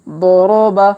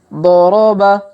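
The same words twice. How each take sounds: The two takes are said the same way.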